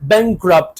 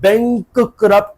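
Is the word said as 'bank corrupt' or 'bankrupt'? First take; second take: bankrupt; bank corrupt. First: It is said as one word, bankrupt. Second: It is said like two words, bank corrupt. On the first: The speaker calls it right. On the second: The speaker calls it wrong. "ये बैंक करप्ट नहीं"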